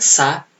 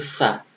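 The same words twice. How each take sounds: First: The consonant is a plain s sound. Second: The consonant is a th-like sound. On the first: The speaker calls it wrong. "Bukan sa" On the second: The speaker calls it right. "tapi sa. Lidahnya itu menempel di langit-langit atas ya"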